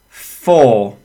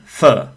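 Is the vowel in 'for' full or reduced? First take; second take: full; reduced. First: The word has a full, clear vowel. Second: The word has a reduced schwa vowel. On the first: "So that's the strong form of these two prepositions" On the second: "the weak forms. And the pronunciation is of and fur. So we are using the schwa sound"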